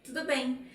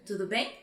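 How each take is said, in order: First: Tudo bem. falling on bem; settled falling answer. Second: Tudo bem? rising on bem; questioning lift at the end; asking tudo bem. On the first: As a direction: give it as a reply. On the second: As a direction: pose it as a question. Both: Shown as a demonstration. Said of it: "answer the same way as the question".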